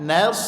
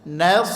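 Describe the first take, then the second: No difference in how they are said.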